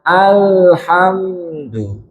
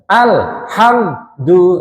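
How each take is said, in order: First: The consonant is said softly without pressing. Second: The consonant is pressed hard with a trill. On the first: The speaker calls it right. "lek lunak alhamdu lo beda ... lunak atau lembut" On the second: The speaker calls it wrong. "Jangan dibaca alhamdu. ... ngetril suaranya ... atos suaranya"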